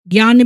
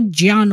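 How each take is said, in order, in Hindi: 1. यह शब्द g-y की आवाज़ से शुरू होता है। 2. यह शब्द j-y की आवाज़ से शुरू होता है। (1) "ज्ञान भी नहीं होता" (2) "वो ज्ञान होता है"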